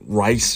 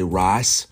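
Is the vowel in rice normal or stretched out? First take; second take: normal; stretched out. First: The vowel is said at normal length. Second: The vowel is stretched out, as grandmother said it.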